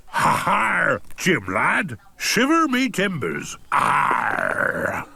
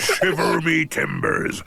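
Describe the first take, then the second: First: Lightly voiced pirate; a hint of a jolly pirate. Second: Lightly voiced pirate; a hint of a hoarse pirate. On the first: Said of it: "talk like a pirate". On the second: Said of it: "that pirate voice".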